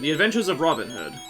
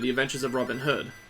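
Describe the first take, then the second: First: The stress falls on the word Robin. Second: The stress falls on the word Hood. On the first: This is how American speakers say it. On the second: This is how British speakers say it.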